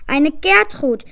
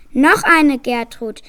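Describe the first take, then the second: First: A child's lightly voiced joyful cheer, a bit louder; the proud father cheers the name, mild mock joy. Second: Slow, louder proud crow. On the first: Father gull greeting his first daughter, lightly cheering. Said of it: "jubelte der Vater". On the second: Father gull boasting about a second Gertrud, slow proud crow. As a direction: crow it out with a puffed-up chest. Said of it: "krähte der Vater mit stolz geschwellter Brust". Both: A narrator's reading.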